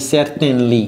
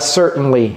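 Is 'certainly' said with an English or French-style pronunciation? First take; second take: French-style; English. First: It is said with a French-style pronunciation. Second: It is said with a natural English pronunciation. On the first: The speaker calls it wrong. "j'ai pas dit certainly" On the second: The speaker calls it right. "J'ai dit quoi? Certainly"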